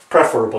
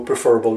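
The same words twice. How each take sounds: First: The stress is on the first syllable. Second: The stress is on the second syllable. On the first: The speaker calls it right. "the correct pronunciation is preferable" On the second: The speaker calls it wrong. "Sometimes people do that, prefer and they go preferable"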